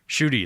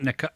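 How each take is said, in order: First: The name begins with a sh sound. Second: The name begins with an N sound. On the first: The speaker calls it right. "Shooty is how you is how you pronounce that" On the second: The speaker calls it wrong. "Not Nika"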